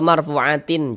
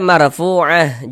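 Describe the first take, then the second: First: The word ends with an added tin ending. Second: The word ends with a soft h sound. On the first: The speaker calls it wrong. "atau marfu'atin, jangan" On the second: The speaker calls it right. "Ini kita baca marfu'ah"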